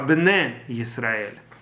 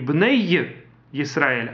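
First: The first word ends in a plain e vowel. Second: The first word ends with a y glide. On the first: The speaker calls it right. "а бне Исраэль. ... юд после цери не произносится" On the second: The speaker calls it wrong. "Не бней Исраэль"

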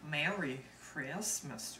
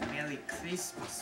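First: It is said in a Southern accent. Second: It is said in a French accent. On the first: "Here's the Southern accent" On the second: "the French accent"

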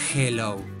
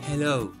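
First: It begins with a harsh sound from the throat. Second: It begins with a soft breathy h sound. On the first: The speaker calls it wrong. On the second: The speaker calls it right. "Es hello"

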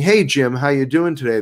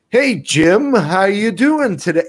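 First: The greeting sounds relaxed and natural. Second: The greeting sounds overdone and exaggerated. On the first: The person is at ease on camera. The speaker calls it right. "instead of sitting on camera and saying" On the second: The person is nervous in front of the camera. The speaker calls it wrong. "They're going, ... The camera's on and they freak out"

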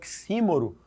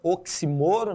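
First: The stress is on the third-to-last syllable. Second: The stress is on the second-to-last syllable.

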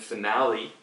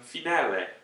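First: The word is pronounced the English way. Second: The word is pronounced the Italian way. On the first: "영어로 얘기하실 때 우리는 finale이라고 해요" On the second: "원래 발음은 finale"

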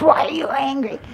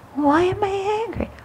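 First: It is said in a harsh, forceful tone. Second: It is said in a gentle, curious tone.

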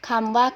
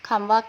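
Both takes have the same delivery.

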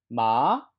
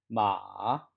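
First: The pitch rises from middle to high. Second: The pitch dips low and then rises. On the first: "2성은" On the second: "삼성"

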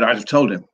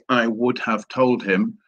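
First: The first words are contracted together. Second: Every word is said fully and separately. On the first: "they said" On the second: "people don't actually say"

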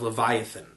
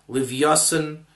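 First: It is said with an English pronunciation. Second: It is said with an Ashkenazi Hebrew pronunciation.

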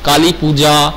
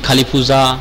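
First: The j sound is a full stop-like j. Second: The j sound is softened into a z-like sound.

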